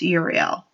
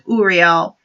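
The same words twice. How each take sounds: First: The name starts with a 'you' sound. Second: The name starts with an 'ooh' sound. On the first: The speaker calls it right. "with you, with his pronounced Uriel" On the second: The speaker calls it wrong. "I mispronounced it. I thought it was Uriel because I pronounced like ooh"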